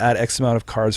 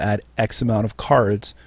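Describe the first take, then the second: First: The phrase flows without any pause. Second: There is a pause inside the phrase. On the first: The speaker calls it right. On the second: The speaker calls it wrong.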